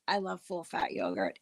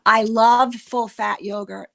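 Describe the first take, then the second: First: Much softer, falling "I love full fat yogurt"; quiet confiding repeat of "I love full fat yogurt". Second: Louder, stress on "love"; "love" punched out loud; emphatic declaration. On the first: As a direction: murmur it again to yourself. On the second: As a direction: proclaim it loudly, hitting "love". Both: Real, not acted.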